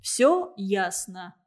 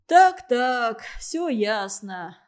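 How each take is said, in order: First: Gloating. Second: A louder, gloating so-so, then a slow all clear; gleeful nodding. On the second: Official gloating over the student's slip, slow and pleased. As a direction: savor catching him out. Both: A narrator's reading. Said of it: "закивал Пингвин, радостно улыбаясь".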